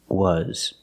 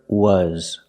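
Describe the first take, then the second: First: The vowel sounds like 'uh' as in 'cup'. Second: The vowel sounds like 'uh' as in 'cup'.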